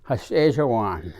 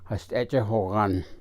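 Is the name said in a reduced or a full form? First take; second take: reduced; full. First: The name is said in a reduced, house-like form. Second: The name is said in its full form. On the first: The speaker calls it wrong. "sounds like you're growling or saying house" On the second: The speaker calls it right. "the correct pronunciation would be Hashtejahogan"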